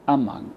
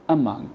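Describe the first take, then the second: First: The first vowel is a weak schwa. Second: The same.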